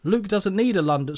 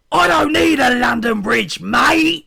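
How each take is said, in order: First: Said in the usual way. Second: Very loud, high-pitched full-throated yell; big drawn-out shout ending on MATE; shouted wrestler. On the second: Acted. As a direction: holler it like a wrestler cutting a promo. Acts Luke's loud wrestler promo.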